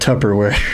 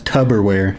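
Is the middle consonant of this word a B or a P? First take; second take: P; B. First: The middle consonant is a P sound. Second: The middle consonant is a B sound. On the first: This is the correct pronunciation. The speaker calls it right. "Instead of" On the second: This is the mistaken pronunciation someone used. The speaker calls it wrong. "He thought it was"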